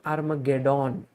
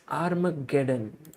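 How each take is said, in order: First: The last syllable sounds like 'dawn'. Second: The last syllable sounds like 'done'. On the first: The speaker calls it wrong. "not dawn. That is not how you say it" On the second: The speaker calls it right. "You have to say done at the end"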